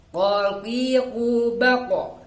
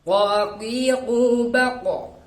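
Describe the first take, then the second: Both takes have the same delivery.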